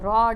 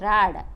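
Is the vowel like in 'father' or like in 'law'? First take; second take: law; father. First: The vowel is a rounded 'aw' sound. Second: The vowel is an unrounded open 'ah' sound. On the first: "British इंग्लिशमध्ये आपण रॉड असं म्हणतो, ऑ हा sound वापरतो" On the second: "American इंग्लिशमध्ये राड म्हणजे ऑच्या ऐवजी तिथं फक्त आ वापरला जातो"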